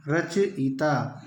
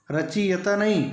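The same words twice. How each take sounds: First: रचयिता drawn out slowly, each syllable clear; slow model take of रचयिता; teacher giving the right form slowly; correct pronunciation, slowly. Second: रचयिता said as the common wrong form, raised and pushed; teacher voicing the students' mistake; wrong pronunciation. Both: Shown as a demonstration.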